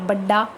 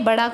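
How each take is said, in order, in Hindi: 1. मध्य व्यंजन लंबा दोहरा ड है। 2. मध्य व्यंजन एक ही फ्लैप है।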